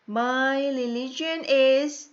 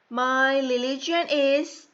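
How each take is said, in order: Both takes have the same delivery.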